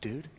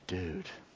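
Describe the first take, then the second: First: The word is said with fear. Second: The word is said with relief. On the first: The speaker is frightened. "used to communicate fear" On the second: The speaker is relieved. "used to communicate relief"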